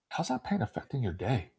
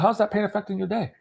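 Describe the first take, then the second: First: It is asked in a slower, concerned tone. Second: It is asked in a quick, offhand tone. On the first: The listener opens up and admits the real problem. The speaker calls it right. "Just the way that I ask the question is going to cause them to go deeper" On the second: The listener gives a shallow, surface answer. The speaker calls it wrong. "if I just ask you"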